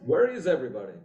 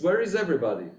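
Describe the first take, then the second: First: Lightly imitated Italian accent. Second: Said in the usual way. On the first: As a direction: quote it with a hint of an Italian accent. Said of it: "he said that in an Italian accent".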